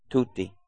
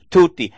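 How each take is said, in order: First: A soft, low, dropped "Tutti."; quiet answer. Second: A loud, firm "Tutti." that hammers the point; forceful preacher's "Tutti."; emphatic answer. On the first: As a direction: say "Tutti." softly, almost to yourself. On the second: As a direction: proclaim "Tutti." to the whole congregation. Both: Acted. Answer repeated quietly then loudly.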